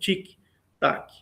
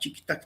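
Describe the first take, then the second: First: The ticking is said at a slower pace. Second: The ticking is said at a quicker pace. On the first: Time passes more slowly in orbit. "o tempo está passando um pouco mais devagar" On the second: Time passes at normal speed on Earth. "para quem está aqui na Terra, o tempo está passando de uma maneira"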